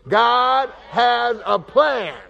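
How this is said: It is said forcefully, with strong conviction. "let's say it like you believe it"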